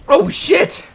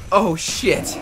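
First: Surprised yelp. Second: Said in the usual way. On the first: Real, not acted. Bad hit in game.

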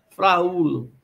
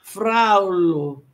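First: "fraulo" in three syllables, fra-U-lo; hiatus. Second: "Fraulo" in two syllables, FRAU-lo; drawn-out "Fraulo", the U a glide after A; diphthong. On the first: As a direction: say "fraulo" with A and U as separate vowels. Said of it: "teríamos hiatos e não ditongos". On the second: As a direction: say "Fraulo" with "au" as one gliding sound. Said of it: "nos ditongos as semivogais I e U". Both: Shown as a demonstration.

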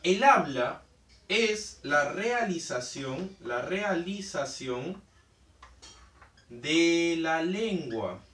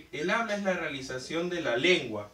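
First: Slow, drawn-out phrases with pauses between; teacher slowing down so students remember; slow emphatic recap. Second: Said in the usual way. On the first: Shown as a demonstration. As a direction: hammer home the key definition slowly. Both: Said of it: "Bien, entonces recuerda".

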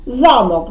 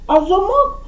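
First: Замок with the first syllable, за, stressed. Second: Замок with the last syllable, мок, stressed and rising; stress on the final O. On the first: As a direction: lean on the за of Замок. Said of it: "В першому наголос падає на А". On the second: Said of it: "а замок — це те, що висить". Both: Shown as a demonstration.

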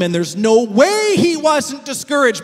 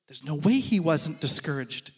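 First: Said in the usual way. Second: Lower, softer, drawn back; hushed refrain. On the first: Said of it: "refrain at full voice". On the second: Real, not acted. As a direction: let the refrain sink to a hush. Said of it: "refrain dropped low and soft".

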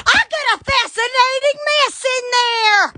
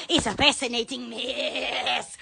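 First: High, hollered announcement; excited exclamation. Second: Slow, soft and low; hushed, stretched-out relish; low, drawn out. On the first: Exclaims over the mess. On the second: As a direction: savor it slowly, dropping down low. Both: Real, not acted.

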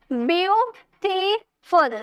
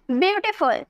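First: beautiful slowly in three beats, byu, ti, ful; syllable by syllable. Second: Said in the usual way. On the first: Shown as a demonstration. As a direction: break beautiful into three drawn-out pieces. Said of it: "तीन syllable आए ना". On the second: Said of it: "अब इसे बोलिए".

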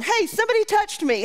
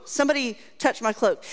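First: Much higher, calling out over a crowd; mock call-out. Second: Said in the usual way. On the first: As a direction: yelp it like you're lost in a stadium crowd. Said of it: "and going".

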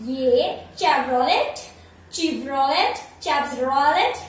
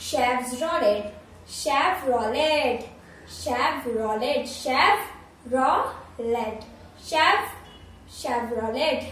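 First: Chevrolet said "chev-ro-let" with the final t and a rising end, very slow; wrong pronunciation. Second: Chevrolet said "shev-ro-lay", no t, very slow; correct pronunciation. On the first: Teacher showing viewers the common wrong Chevrolet. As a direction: mispronounce Chevrolet the way everyone does. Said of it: "मैं तो आपसे भी danger pronounce कर रही हूँ". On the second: Teacher modelling the correct Chevrolet for viewers. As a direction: draw out Chevrolet the right way, syllable by syllable. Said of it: "इसका सही pronunciation है". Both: Shown as a demonstration.

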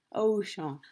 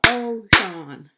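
First: Said in the usual way. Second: Ocean in two loud beats, O-cean; syllable by syllable. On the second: Shown as a demonstration. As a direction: punch out both syllables of Ocean. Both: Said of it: "how many parts a word can be broken into".

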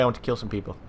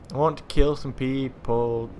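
First: Said in the usual way. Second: Slow, stretched-out repeat; drawn out. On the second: Real, not acted. Player waiting to kill some people, drawn out. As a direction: draw out each word, especially "people".

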